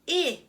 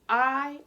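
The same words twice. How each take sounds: First: A short vowel, as at the start of 'it'. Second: A long vowel, as at the start of 'ice'. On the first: "the short sound is I" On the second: "the long sound is I"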